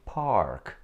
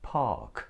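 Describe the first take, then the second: First: The R sound is pronounced after the vowel. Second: The R sound is dropped after the vowel. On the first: The speaker calls it wrong. "we never say park" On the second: The speaker calls it right. "we say park"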